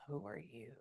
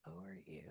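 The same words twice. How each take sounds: First: Said in the usual way. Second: "Who are you?" much lower and far softer, almost under the breath; hushed repeat. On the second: Real, not acted. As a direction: murmur "Who are you?" to yourself, low and soft. Medium asking a spirit again.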